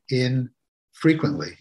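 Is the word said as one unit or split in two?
split. It is split with a break after 'in'. It happens inside, and often.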